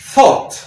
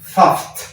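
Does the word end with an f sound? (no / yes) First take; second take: no; yes. First: It has a long o vowel and no f. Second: It has an a vowel and ends with f. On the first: The speaker calls it right. "ahora se pronuncia una O larga, O, y la G H no se pronuncia" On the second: The speaker calls it wrong. "si siguiéramos esa regla, entonces esta palabra que lleva O, U y G H debería pronunciarse"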